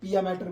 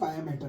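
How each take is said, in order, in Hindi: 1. पहले शब्द की शुरुआत 'pee' की आवाज़ से होती है। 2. पहले शब्द की शुरुआत 'pie' की आवाज़ से होती है।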